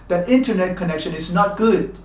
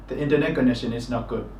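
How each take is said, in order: First: Some syllables are clearly stressed, others weaker. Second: All syllables are given roughly equal stress. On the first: The speaker calls it right. "we have to put stress in speaking their language" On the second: The speaker calls it wrong. "in Myanmar we tend to say"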